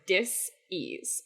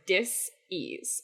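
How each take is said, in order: First: The word is split into two separate parts. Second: The same.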